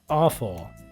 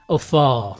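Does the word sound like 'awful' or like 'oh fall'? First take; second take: awful; oh fall. First: It sounds like the word awful. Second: It sounds like oh followed by fall. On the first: The speaker calls it wrong. "I wish there was a better way to pronounce that" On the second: The speaker calls it right. "something would be better"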